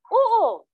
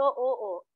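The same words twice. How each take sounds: First: Sharp, much higher and louder yes; angry yes. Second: Said in the usual way. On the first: Shown as a demonstration. Teacher demonstrating an angry yes when pressed. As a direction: snap back in anger. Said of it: "So, galit ka na". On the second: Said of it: "Kapag pinipilit na kayo".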